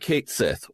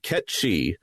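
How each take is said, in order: First: The name sounds like Kate Sith. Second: The name sounds like Ket Shi. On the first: This is an anglicized reading. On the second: This is the original pronunciation.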